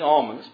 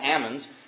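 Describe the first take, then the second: First: Almonds is said with a non-Californian pronunciation. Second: Almonds is said with the Californian pronunciation. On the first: This is how it really should be said. The speaker calls it right. "but they're actually almonds" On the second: This is how locals in that region say it. The speaker calls it wrong. "Californians don't know how to pronounce it. They call them almonds"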